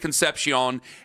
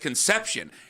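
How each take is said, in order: First: The name ends in a 'see-on' sound. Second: The name ends in a 'shun' sound. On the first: "I was saying it like Dave Concepcion" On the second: "nah, Ken, it's Conception"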